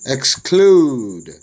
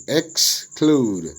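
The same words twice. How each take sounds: First: Said in the usual way. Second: "exclude" split as ex, clude; syllable by syllable. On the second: Shown as a demonstration. Teacher dividing worksheet words, "exclude" broken into syllables. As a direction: say "exclude" as two separated syllables. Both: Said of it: "syllable division of the words".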